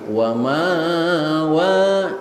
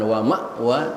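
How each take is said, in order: First: A long vowel replaces the glottal stop. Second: A glottal stop is heard before the second wa. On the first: This is how more learned readers recite it. "tapi wa ma wa, hamzahnya diganti dengan alif" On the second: This is the ordinary reading. "bukan wa ma wa"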